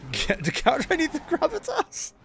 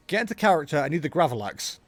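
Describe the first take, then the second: First: Pitched way up into falsetto; climbing to a very high put-on pitch. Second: Said in the usual way. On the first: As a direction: squeeze it out in a mock high voice. Acts the line he wants, then repeats it.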